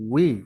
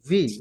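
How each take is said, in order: First: It begins with rounded lips, a W sound. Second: It begins with a buzzing V sound. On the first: The speaker calls it right. "উচ্চারণ হবে গোল থেকে উই" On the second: The speaker calls it wrong. "অনেক স্টুডেন্ট আছে ওয়াজের ভি বলে"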